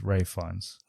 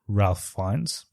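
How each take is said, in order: First: The first name is said like 'Rafe', no L. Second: The first name is said with an L sound. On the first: The speaker calls it right. "but it's Ray Fiennes" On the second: The speaker calls it wrong. "I always thought it was Ralph Fiennes"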